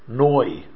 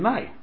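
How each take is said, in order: First: The vowel is pronounced like 'oh'. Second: The vowel is pronounced like 'ah'. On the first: The speaker calls it right. "I'm talking about the komatz, noi" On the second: The speaker calls it wrong. "they say nai"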